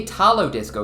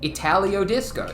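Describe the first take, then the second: First: The first word has three syllables, without an 'ee'. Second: The first word has four syllables, with an 'ee'. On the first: The speaker calls it wrong. "Why would it be Italo Disco?" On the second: The speaker calls it right. "It's it's like Italian"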